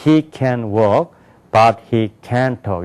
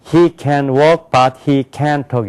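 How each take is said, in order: First: He can walk, but he can't talk, slow with long walk and talk; deliberate English rhythm on walk, can't, talk; English stress rhythm. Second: Korean-accented reading, evenly weighted words; level Korean rhythm on every word. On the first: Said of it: "이렇게 된다고요". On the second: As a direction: read it like a Korean learner, no stress. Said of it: "이렇게 한다고". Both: Shown as a demonstration.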